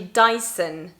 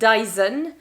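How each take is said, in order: First: The middle consonant is an S sound. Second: The middle consonant is not an S sound. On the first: "in English it's actually Dyson with an S sound" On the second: "in French, Dyson"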